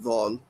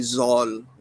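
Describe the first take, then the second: First: The letter begins with a dh sound. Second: The letter begins with a z sound. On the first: The speaker calls it right. "instead of vol" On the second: The speaker calls it wrong. "so they say zol"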